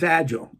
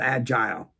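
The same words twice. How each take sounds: First: The last syllable has a short uh vowel. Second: The last syllable has a long eye vowel. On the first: The speaker calls it right. "it's agile. It's not agile" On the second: The speaker calls it wrong. "It's not agile"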